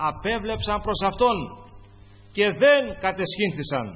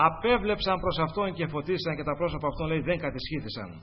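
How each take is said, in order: First: «Απέβλεψαν προς Αυτόν» higher, with a punched, louder «δεν κατεσχύνθησαν»; emphatic repeat. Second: Said in the usual way. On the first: Shown as a demonstration. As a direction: preach it out, driving home «δεν κατεσχύνθησαν». (με έμφαση και δυνατή φωνή στο «δεν κατεσχύνθησαν»)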